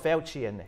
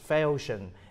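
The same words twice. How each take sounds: First: The middle consonant is not an 'sh' sound. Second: The middle consonant is an 'sh' sound. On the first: The speaker calls it wrong. "you don't say it Falchion" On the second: The speaker calls it right. "it's Falchion, as in the word mission or station"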